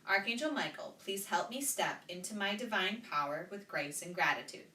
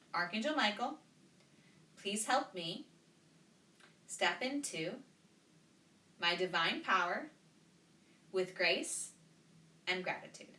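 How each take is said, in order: First: It is said at a normal pace. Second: It is said more slowly.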